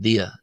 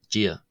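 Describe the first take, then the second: First: The first consonant sounds like a plain D. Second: The first consonant sounds close to an English J. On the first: This is how some other dialects say it. "In some dialects, it's pronounced dia" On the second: This is how Ulster speakers say it. "in Ulster, it's pronounced as gia"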